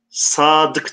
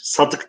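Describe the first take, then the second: First: The first vowel a is held long. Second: The first vowel a is said short. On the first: The speaker calls it right. "Mesela sadık diyoruz" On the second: The speaker calls it wrong. "Sadık demiyoruz bakın"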